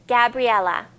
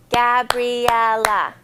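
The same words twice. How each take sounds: First: Said in the usual way. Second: Gabriella slowed into four beats Ga-bri-el-la; syllables clapped out. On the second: Shown as a demonstration. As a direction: clap each syllable of Gabriella slowly. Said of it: "So there's four".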